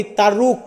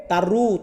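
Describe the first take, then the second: First: তারুক with an audible k closing the word; mispronounced final K. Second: তারু ending on an open oo, k dropped; silent final K. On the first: Teacher shows learners the misreading from spelling, final k pronounced. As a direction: say তারুক, sounding the written k at the end. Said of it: "এইখানে কের উচ্চারণটা হবে না". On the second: Teacher corrects learners' reading of the Malay word, final k silent. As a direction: say তারু with no k sound after the long u. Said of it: "এটার উচ্চারণ হবে". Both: Shown as a demonstration.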